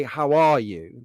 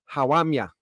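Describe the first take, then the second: First: Said in the usual way. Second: "How am ya?" in a Black Country twang; lightly mimicked Black Country accent; Black Country dialect. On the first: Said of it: "So they won't say". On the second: Shown as a demonstration. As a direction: imitate a Black Country local greeting. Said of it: "They'll say".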